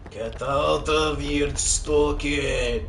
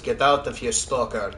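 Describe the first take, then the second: First: It is said with a thick accent. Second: It is said with a very light accent.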